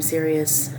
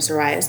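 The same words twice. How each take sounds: First: The name is said the usual, accepted way. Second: The name is sounded out letter by letter. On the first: The speaker calls it right. "it took me a long time to get used to calling him Sirius" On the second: The speaker calls it wrong. "it's how it looks when you read it"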